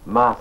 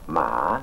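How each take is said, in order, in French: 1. Il porte le ton qui donne le sens fantôme. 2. Il porte le ton qui donne le sens tombeau. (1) "cela signifie fantôme" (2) "le tombeau"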